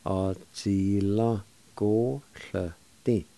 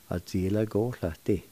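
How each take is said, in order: First: "Á díla go llyti." slowly, syllables stretched apart; slow, careful pronunciation. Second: Said in the usual way. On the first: Shown as a demonstration. Teacher putting "Á díla go llyti." together for learners, slowly. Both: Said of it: "And together".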